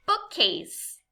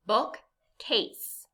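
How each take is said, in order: First: Said in the usual way. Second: BOOKCASE in two separate parts; syllable by syllable. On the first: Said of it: "say the whole word together". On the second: Shown as a demonstration. Teacher gives learners a word to blend, BOOKCASE syllable by syllable. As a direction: pause between book and case in BOOKCASE. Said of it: "say it syllable by syllable".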